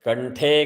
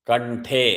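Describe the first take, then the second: No difference in how they are said.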